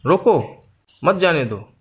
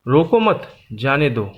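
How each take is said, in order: First: रोको drawn out, pause, then मत जाने दो together; pause after रोको. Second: रोको मत together, pause, then जाने दो; pause after मत. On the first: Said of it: "अल्प विराम का प्रयोग किया गया है". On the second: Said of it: "अल्प विराम की जगह बदली गई है". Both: Shown as a demonstration.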